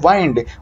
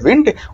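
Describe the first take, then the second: First: The vowel is a long 'eye' sound. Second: The vowel is a short 'i' sound. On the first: It is the verb meaning to wind up a key. "Verb के रूप में बोला जाए तो इसका उच्चारण होता है वाइंड" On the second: It is the noun meaning air or breeze. "यदि डब्ल्यू आई एन डी को नाउन के रूप में बोले तो वो होता है विंड"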